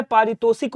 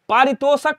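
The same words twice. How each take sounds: First: पारितोषिक ending "-shik"; correct last vowel. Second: पारितोषक ending "-shak"; wrong last vowel. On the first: Teacher correcting students, पारितोषिक ending "-shik". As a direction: put i before k in पारितोषिक. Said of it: "होता है". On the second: Teacher showing students the error, पारितोषक ending "-shak". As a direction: say पारितोषक with a before k. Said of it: "नहीं होता है". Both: Shown as a demonstration.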